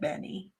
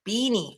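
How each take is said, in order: First: The first vowel is short, as in 'bed'. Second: The first vowel is long, as in 'bean'. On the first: This is how the owners say it. "We're pronouncing it Benny" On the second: Someone else said it this way. "they weren't saying Benny. It was like Beanie"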